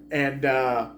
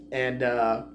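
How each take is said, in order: Both takes have the same delivery.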